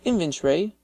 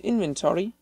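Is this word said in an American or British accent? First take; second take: British; American. First: The word is said in a British accent. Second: The word is said in an American accent. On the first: "they'll say inventory" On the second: "I believe the word you're looking for is inventory"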